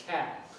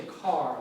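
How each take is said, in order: First: Car with a Boston accent, R dropped; Boston "cat" for car, no R. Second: Said in the usual way. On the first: Shown as a demonstration. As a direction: say CAT for car, long flat A, Boston style. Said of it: "they'd say cat". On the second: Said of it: "So I would say car".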